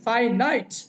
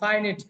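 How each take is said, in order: First: The second syllable sounds like 'night'. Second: The second syllable sounds like 'nit'. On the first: The speaker calls it right. "শিখেন ফাইনাইট" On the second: The speaker calls it wrong. "উচ্চারণটা ফাইনিট না"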